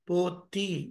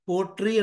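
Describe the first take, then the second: First: The middle consonant is a soft doubled 'tt'. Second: The middle consonant is a hard 'tr' sound. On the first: This is how the word is recited. "కానీ మనం ఎలా చదువుతున్నాం?" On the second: This is how the word is written. "ద్రావిడం ఎలా ఉంటాయి? పోట్రీ అని ఉంటాయి"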